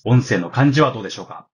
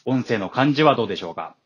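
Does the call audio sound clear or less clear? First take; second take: less clear; clear. First: The call audio sounds somewhat less clear. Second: The call audio sounds quite clear. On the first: The speaker calls it wrong. "ショックスオープンフィットで録音した音声になります。" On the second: The speaker calls it right. "クリアアーク2 で録音した音声になります。"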